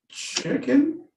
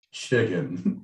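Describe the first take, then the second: First: High, rising questioning "chicken?"; high-pitched query on chicken. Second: Low-pitched confirmation of chicken; confirming. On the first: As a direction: lift "chicken" high like an unsure answer. Acted answer about the meal. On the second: Repeats the answer lower. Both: Acted.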